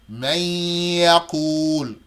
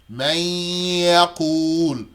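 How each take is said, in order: No difference in how they are said.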